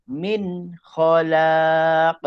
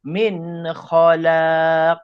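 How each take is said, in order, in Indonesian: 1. Vokal pada khalaq dibaca panjang. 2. Vokal pada khalaq dibaca panjang.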